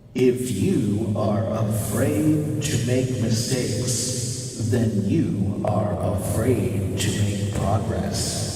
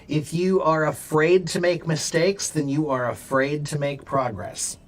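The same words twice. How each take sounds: First: It is spoken in a deep, booming put-on voice. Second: It is spoken in an ordinary speaking voice.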